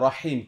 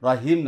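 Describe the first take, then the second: First: The h is a deep, throaty breath. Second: The h is a light, plain breath. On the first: The speaker calls it right. "বড় হা দিয়া রহিম" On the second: The speaker calls it wrong. "রহিম না"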